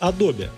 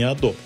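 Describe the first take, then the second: First: It is said the original English way. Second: It is said the localized Russian way. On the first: This is the company's real name. The speaker calls it right. "называется Adobe" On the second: This is the habitual local version. The speaker calls it wrong. "а не Adobe"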